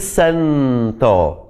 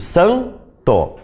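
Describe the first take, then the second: First: The tongue touches the teeth for the n sound. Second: The tongue does not move; the vowel is nasal. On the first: The speaker calls it wrong. "do mesmo jeito que eu digo nada, eu não digo santo" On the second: The speaker calls it right. "Eu digo santo. Não mexo a língua"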